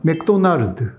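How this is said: It is said with Korean pronunciation. "한국 발음도 조금 다른데"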